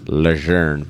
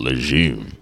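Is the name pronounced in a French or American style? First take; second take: French; American. First: The name is pronounced in a French style. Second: The name is pronounced in an American style. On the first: "the correct pronunciation is Lejeune" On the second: "here in America. We call it Lejeune"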